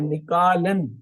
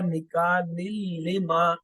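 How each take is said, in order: First: The word ends with a clear n sound. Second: The n merges into a doubled l sound. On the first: "नून की आवाज थी तन्वीन की" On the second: "जब हमने उसे मिलाया"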